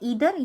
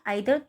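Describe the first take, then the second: First: The first vowel sounds like 'ee'. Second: The first vowel sounds like 'eye'. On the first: "दोनों इसको हम pronounce कर सकते हैं" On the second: "दोनों इसको हम प्रोनाउंस कर सकते हैं"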